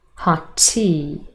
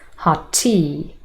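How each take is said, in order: First: The words are linked with a single t. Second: The same.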